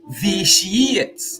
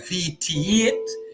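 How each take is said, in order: First: The middle 'ti' is said with an 'sh' sound. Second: The middle 'ti' is said with a 't' sound. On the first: "the ti would you know make that sh sound" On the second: "We we like to say vitiate"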